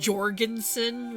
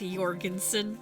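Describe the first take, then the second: First: The name begins with an English J sound. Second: The name begins with a Y sound. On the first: "spelled like Jorgensen with a J" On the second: "The J's are Y's in North"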